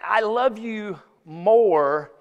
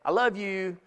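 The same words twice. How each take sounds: First: Slow, stretched I love you more; drawn-out phrase. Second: Said in the usual way. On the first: Shown as a demonstration. Preacher setting up the sermon's phrase, slow and drawn out. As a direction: linger on every word. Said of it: "in that I love you more context".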